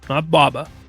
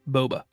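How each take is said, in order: First: The first vowel sounds like 'ah'. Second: The first vowel sounds like 'oh'. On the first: The speaker calls it wrong. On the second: The speaker calls it right. "It's Boba"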